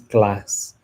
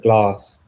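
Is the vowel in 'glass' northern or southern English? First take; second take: northern; southern. First: It is said with a northern English vowel. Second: It is said with a southern English vowel. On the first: "for me it's glass" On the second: "in um, southern English, this is a glass"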